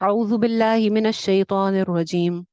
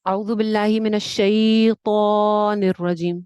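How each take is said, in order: First: The long vowels are held for a normal length. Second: The long vowels are stretched out well beyond normal. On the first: This way is easier to say. The speaker calls it right. "ये ये ये आसान" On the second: This way is harder to say. The speaker calls it wrong. "ये मुश्किल"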